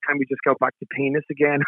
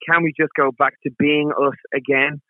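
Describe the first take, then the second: First: It is said fast, with words run together. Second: It is said at a normal, clear pace.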